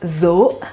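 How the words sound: The word begins with a buzzing 'z' sound. This is how it is said in the Palestinian dialect. "in Palestinian dialect is pronounced as zo"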